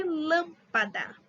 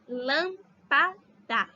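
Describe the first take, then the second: First: Said in the usual way. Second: "lâmpada" very slowly, in three separate pieces; lâm-pa-da, syllable by syllable; separated syllables. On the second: Shown as a demonstration. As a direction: split "lâmpada" as LÂM, pa, da with pauses. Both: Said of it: "Se a gente separar".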